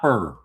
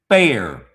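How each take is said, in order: First: The word is said with an 'ur' vowel, like fur. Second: The word is said clearly with the 'air' vowel. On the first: The speaker calls it wrong. "not fur" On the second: The speaker calls it right. "Say it, say it clear"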